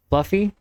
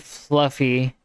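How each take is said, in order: First: "fluffy?" asked with a high questioning rise; puzzled rising question. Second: Said in the usual way. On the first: Real, not acted. Reading the story aloud, she questions the word in puzzled rise. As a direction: doubt the odd word in the text.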